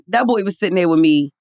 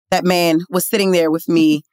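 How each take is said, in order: First: Said in the usual way. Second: "man" set apart and firmly stressed; measured delivery with weight on "man". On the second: Real, not acted. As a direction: correct yourself, leaning deliberately on "man". Corrects boy to man, deliberately.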